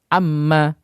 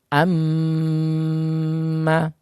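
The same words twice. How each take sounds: First: The m is short with no nasal hum. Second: The m is held long with nasal hum. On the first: The speaker calls it wrong. "dibaca seperti itu tanpa disertai dengan dengung" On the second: The speaker calls it right. "kita tekan lebih lama disertai dengan gunnah atau dengung"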